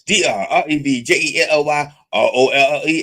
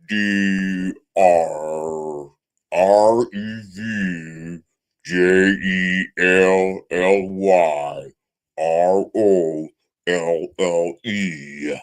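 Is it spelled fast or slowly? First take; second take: fast; slowly. First: The letters are spelled fast. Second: The letters are spelled slowly.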